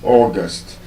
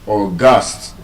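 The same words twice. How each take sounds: First: The stress is on the first syllable. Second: The stress is on the second syllable. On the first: It names the month of the year. "As a noun, which is the month of the year, is August" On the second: It means very special or very important. "that word is not stressed on the first syllable"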